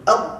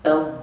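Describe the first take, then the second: First: The sound stops sharply with nothing remaining. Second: The sound keeps flowing briefly after the letter. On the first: "kalau kita matikan, ha, matikan suara tu" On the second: "Suara tu berbaki kerana dia bersifat rakhawah"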